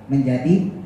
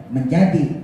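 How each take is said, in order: The two takes are said the same way.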